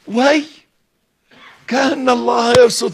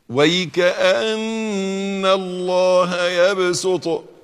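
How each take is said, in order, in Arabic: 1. تُنطق "Way" منفصلة كأداة تعجب. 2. تُقال "Wayka'anna" كلمة واحدة متصلة. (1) "بيقولوها كده، وي كأن الله يبسط الرزق، متعجبين" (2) "تقرأ في قراءة حفص"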